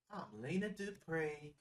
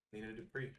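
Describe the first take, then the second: First: Slow, higher-pitched Southern character voice; Lena Dupree. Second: Said in the usual way. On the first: Retold or imitated. Introducing herself as the island hostess, slow drawled impression. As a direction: draw each word out, imitating her drawl. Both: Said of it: "That's how she talks".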